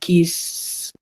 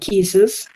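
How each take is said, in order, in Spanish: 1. La palabra termina solo con un sonido largo de s. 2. La palabra termina con una sílaba extra, es.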